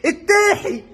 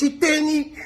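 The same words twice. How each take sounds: First: التاحي with a breathy h instead of n, pitched higher; mocking mispronunciation. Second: Said in the usual way. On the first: Shown as a demonstration. Vlogger mocks the commentator's slip, higher and laughing. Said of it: "مش التاني".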